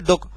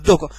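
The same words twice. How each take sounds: First: The word is said plainly, without extra force. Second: The word is said with slight extra force.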